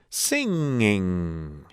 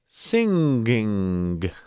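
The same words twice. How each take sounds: First: The word ends softly with no hard G. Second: The word ends with a released hard G.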